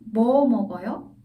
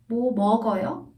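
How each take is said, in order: First: The stress falls on the question word. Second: The stress falls on the verb. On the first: Asks what exactly the person is eating. "뭐 stressed, 먹어요 less" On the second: Asks whether the person is eating anything. "먹 is stressed, but not on 뭐"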